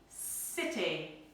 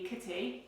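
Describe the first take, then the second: First: The word begins with a soft S sound. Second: The word begins with a hard K sound. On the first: The speaker calls it right. "We say S, it, E, city" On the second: The speaker calls it wrong. "So we don't say K, it, E, kitty"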